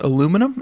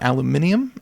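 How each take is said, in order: First: The word has four syllables, ending in -num. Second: The word has five syllables, ending in -nium. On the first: This is the American form used in the segment. "will be pronounced aluminum" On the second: This is the form used in the UK. "and not aluminium"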